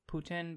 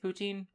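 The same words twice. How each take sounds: First: The word has a French Canadian pronunciation. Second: The word has an English pronunciation. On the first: "it could be like French Canadian where it's like poutine" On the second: "I'm going to say it's poutine. I'm probably wrong"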